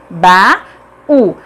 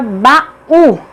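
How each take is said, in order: First: "baú" broken into ba... ú, long pause between; syllable by syllable. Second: "baú" slowly, small break before the stressed "ú"; slightly split syllables. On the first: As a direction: sound out "baú" as two separate syllables. ("baú" silabado, com pausa: ba... ú) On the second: ("baú" devagar, com leve separação: ba-ú) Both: Shown as a demonstration. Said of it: "Cada uma fica em uma sílaba diferente".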